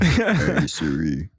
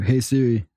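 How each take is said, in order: First: It is said in a much deeper voice. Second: It is said in the speaker's normal pitch.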